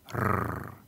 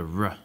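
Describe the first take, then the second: First: The R is a rapid trill of the tongue. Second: The R is a smooth approximant without friction. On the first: "the Romans trilled their R's ... like a dog growling" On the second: "In standard American English, ... you have the r"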